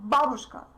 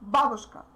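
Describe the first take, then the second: The two takes are said the same way.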